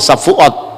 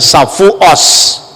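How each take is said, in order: First: The final consonant is a t sound. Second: The final consonant is an s sound. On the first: "lebih fasih bahasa Ibrani. Kalau ngomong Safuot ya Safuot" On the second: "dia tidak bisa ngomong huruf T, tapi mengucapkan Safuos"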